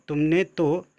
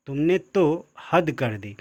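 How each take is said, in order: First: Said in the usual way. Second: तो leaned on, said slowly; stress on तो. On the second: Shown as a demonstration. Teacher showing emphasis to students, stress on तो. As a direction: press hard on तो, stretch the line. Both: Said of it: "तो यहाँ पे निपात शब्द है".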